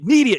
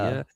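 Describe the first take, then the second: First: The word is shouted loudly. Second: The word is said at normal volume.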